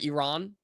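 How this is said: It is said between American and native pronunciation. "If you want to say it like kind of a middle ground"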